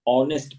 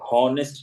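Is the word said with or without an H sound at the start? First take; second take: without; with. First: It starts with a vowel and no H sound. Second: It starts with a clearly breathed H sound. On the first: The speaker calls it right. "ऑनेस्ट पढ़ेंगे" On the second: The speaker calls it wrong. "हॉनेस्ट नहीं पढ़ेंगे"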